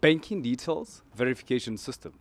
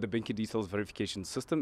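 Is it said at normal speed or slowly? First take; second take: slowly; normal speed. First: It is said slowly. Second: It is said at normal speed.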